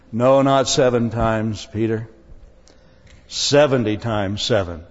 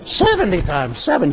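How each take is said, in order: First: Lower, firm voice as a correcting Jesus; a lowered, gently scolding Jesus; Jesus, mildly stern. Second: Disbelieving echo of the number; Peter, dismayed. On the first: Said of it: "Jesus blew his fuses". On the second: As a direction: repeat it in dismay. Peter repeats Jesus, dismayed. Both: Retold or imitated.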